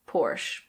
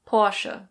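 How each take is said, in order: First: It is said in an American accent. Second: It is said in a German accent. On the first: "In American English, it's similar, but the R is pronounced" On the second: "In German, this is pronounced Porsche"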